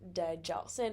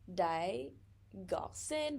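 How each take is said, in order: First: The middle consonant is a j sound. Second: The middle consonant is a hard g. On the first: The speaker calls it right. "but it's like" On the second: The speaker calls it wrong. "fighting myself so hard from for not saying like"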